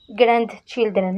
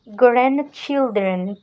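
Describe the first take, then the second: First: The middle D sound is clearly pronounced. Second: The middle D sound is dropped smoothly. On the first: The speaker calls it wrong. "c'est pas grand, grandchildren, non" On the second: The speaker calls it right. "ne prononce pas D au centre; pour les prononcer souplement"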